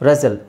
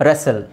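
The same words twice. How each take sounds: No difference in how they are said.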